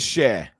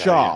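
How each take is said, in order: First: The name rhymes with 'air'. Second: The name ends in an open 'ah' vowel. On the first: The speaker calls it right. "It's pronounced share. It is share" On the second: The speaker calls it wrong.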